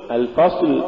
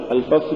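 First: Said in the usual way. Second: الفصل with the final ل dragged out; over-stretched lam. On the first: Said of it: "قل". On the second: Shown as a demonstration. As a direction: overdo and lengthen the ل ending الفصل. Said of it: "وهذا نوع من التمطيط".

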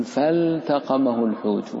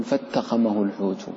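First: فالتقمه with the l sounded clearly before the ت. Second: فاتقمه with the l swallowed into the ت; l dropped, wrong way. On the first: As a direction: keep the l of فالتقمه distinct. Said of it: "تقول فالتقمه الحوت". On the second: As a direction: merge the l into the ت, the wrong way. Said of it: "ولا تقل". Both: Shown as a demonstration.

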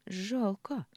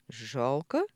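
First: Higher, drawn-out, falling word of disappointment; disappointed. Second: Puzzled question, rising at the end; bewildered echo. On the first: Daughter regrets it isn't her father's baby, disappointed. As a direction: let it fall in open regret. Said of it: "разочарованно протянула Ксения". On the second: Михаил echoes his daughter's word, bewildered. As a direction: ask it back, at a loss. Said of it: "переспросил Михаил растерянно". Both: A narrator's reading.

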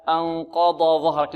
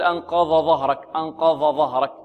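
First: "أنقض ظهرك" with dad then zha kept apart; correct recitation. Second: "أنقض ظهرك" with dad merged into zha; wrong merged reading. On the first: Shown as a demonstration. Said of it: "هكذا". (النطق الصحيح بفصل الضاد عن الظاء) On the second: Retold or imitated. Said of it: "لا يقول". (تقليد الخطأ بإدغام الضاد في الظاء)

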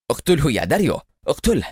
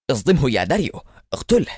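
First: Higher, eager shout rising on داريو; eager yell. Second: Yelling. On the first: Eliezer again urging his driver to kill, eager yell. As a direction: urge him on, desperate. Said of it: "وصرخ إليعازر في لهفة". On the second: Eliezer urging his driver to ram Adham, yelling. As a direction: order that jumps much higher on اقتله. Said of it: "فصرخ إليعازر". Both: Acted.

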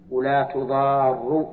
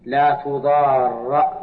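First: ولا تضار slow, final ra with u, tuḍārru; reading with damma. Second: لا تضار with final ra slow and open, tuḍārra; reading with fatha. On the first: Teacher showing the second reading, slow with final u. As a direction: say ولا تضار slowly, closing on a rounded u. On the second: Teacher showing the first reading, slow with open final vowel. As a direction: stretch لا تضار slowly, ending on an open a. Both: Shown as a demonstration. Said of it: "فيها قراءتان".

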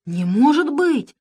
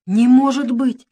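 First: High, slow mock outrage; queen faking anger to fool Pashka, high and slow; feigned anger. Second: High, loud, slow horrified gasp; truly shaken, gasp it out; frightened Rat gasping at bad news; real gasp of shock. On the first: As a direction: fake being shocked and cross. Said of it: "притворно рассердилась королева". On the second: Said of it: "ахнул он". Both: A narrator's reading.

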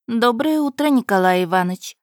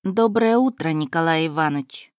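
First: Teasing. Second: Said in the usual way. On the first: Acted. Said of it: "поддела молодого человека".

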